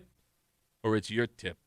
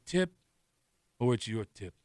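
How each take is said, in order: First: It is said in a plain Italian accent. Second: It is said thickly, as through a stuffed mouth. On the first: The speaker calls it wrong. "I was doing the just doing Italian" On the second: The speaker calls it right. "more like a mouthful of ball, mothballs"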